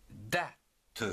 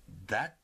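First: "date" broken into "da" and "te", final e sounded; "date" pulled apart, with a separate "te"; split into syllables. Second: Said in the usual way. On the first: Shown as a demonstration. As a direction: say "date" slowly as two beats, da... te. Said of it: "en deux syllabes". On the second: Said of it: "s'écrit".

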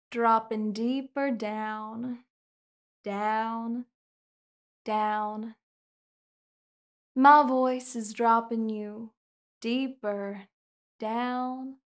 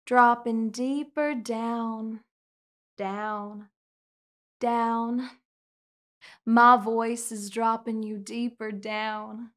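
Both takes have the same delivery.

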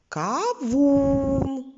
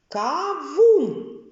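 First: Кавун with the у sung out long and higher; кавун, у stretched and sung; intoning U. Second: Кавун with the у drawn out, higher and louder; кавун spoken slowly, у held long; stretched vowel. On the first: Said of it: "інтонуючи звук У". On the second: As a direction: lengthen the у in кавун, clearly. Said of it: "який у них спільний звук". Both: Shown as a demonstration.

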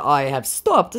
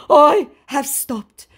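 First: Said in the usual way. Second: High, loud, slow proclamation; mock declaration. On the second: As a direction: declare it hammily, drawn out. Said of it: "he declares".

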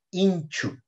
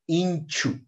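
No difference in how they are said.

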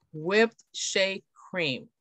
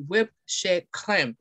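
First: Said in the usual way. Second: Slow French-accented WHIPPED SHEA CREME. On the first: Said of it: "if you want to pronounce it". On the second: Shown as a demonstration. Presenter showing customers the yummier product name, French accent. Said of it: "pronounce it with the French accent".

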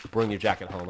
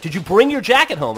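First: Low-key, lower-pitched retold order; routine mom reminder. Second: Higher, louder mom demanding an answer; nagging mom. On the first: Mom reminding her kid after school, matter-of-fact. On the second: Retold or imitated. Mom asking her kid on the last day of school, nagging. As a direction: imitate a mother pressing her kid.

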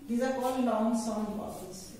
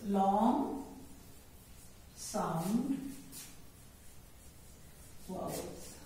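First: Said in the usual way. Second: Long, Sound, vowels said word by word with pauses, fading to a breath on vowels; spaced teaching drill. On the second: Shown as a demonstration. Teacher to children, drilling each word with pauses.

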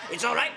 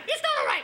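First: Reassuring side. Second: Panicked side. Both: Acted. Humidor argues with itself.

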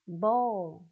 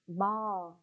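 First: "Ball" in British style, rounded oh-like vowel, louder; British pronunciation. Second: "ball" in American style, open aw vowel; American pronunciation. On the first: Teacher recapping two accents for pupils, British pronunciation of "Ball". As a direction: stress a British "Ball", near "bowl". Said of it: "là anh Anh". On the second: Teacher recapping two accents for pupils, American pronunciation of "ball". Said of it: "chính là anh Mỹ đấy". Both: Shown as a demonstration.

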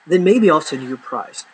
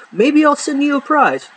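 First: Said in the usual way. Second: Much higher, playful sing-song dangle; teasing offer. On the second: Acted. Promising viewers a prize for jokes, playful high tease.

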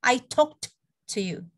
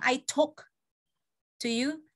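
First: "talked" with a released final t, then a short pause; sounded past ending. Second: Said in the usual way. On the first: Shown as a demonstration. Teacher asking students to hear it, "talked" ending in clear t. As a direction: land the t of "talked" before "to". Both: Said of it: "Ada bedanya nggak kedengerannya?".

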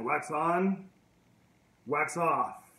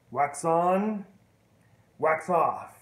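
First: Said in the usual way. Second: Wax on, wax off called out loud; louder instruction. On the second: Retold or imitated. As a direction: call the drill out firmly. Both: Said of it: "He goes".

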